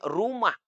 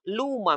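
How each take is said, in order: First: The word begins with a clear R sound. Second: The R is replaced by an L sound. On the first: The speaker calls it right. "Kalau huruf R, harus R-nya jelas" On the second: The speaker calls it wrong. "dia tidak bisa menyebut R dengan jelas"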